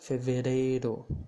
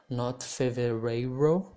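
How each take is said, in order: First: The R is a quick tap. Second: The R is not a quick tap. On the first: The speaker calls it right. "but janeiro, fevereiro" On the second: The speaker calls it wrong.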